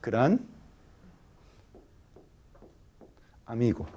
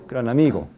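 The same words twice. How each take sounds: First: It is slow, with a pause between the words. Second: It is fast, with the words linked together. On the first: "en habla lenta? Se dice gran amigo. Hay pausa" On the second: "Pero en habla rápida"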